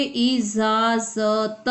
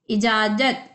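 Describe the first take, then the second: First: इजाजत drawn out slowly with z sounds, izaazat; slow nukta pronunciation. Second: Said in the usual way. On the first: Shown as a demonstration. (इजाजत को धीरे धीरे इज़ाज़त बोलें) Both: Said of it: "इसमें नुक्ता लगेगा तो क्या पढ़ोगे".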